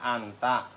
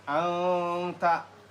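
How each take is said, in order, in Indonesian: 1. Bunyi n dibaca dengan jelas. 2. Bunyi n disengaukan dan samar. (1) "tulisannya anta" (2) "Dibacanya anta"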